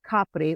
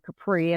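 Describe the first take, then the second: First: It is said with an Italian pronunciation. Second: It is said with an American pronunciation.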